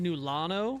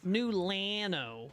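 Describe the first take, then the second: First: The name is said in a lazy, slurred way. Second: The name is said in a careful, full way. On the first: This is how the speaker personally says the name. "I say" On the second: This is how most people say the name. "everybody pronounces it"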